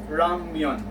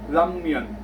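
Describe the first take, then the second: First: The word begins with an R-like sound. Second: The word begins with an L-like sound. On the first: "it sounded as letter R" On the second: "some of them are actually uh, pronouncing ramyun as lamyun"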